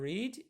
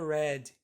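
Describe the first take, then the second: First: The word does not sound like 'red'. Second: The word sounds like the word 'red'. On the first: It is the present tense. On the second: It is the past tense.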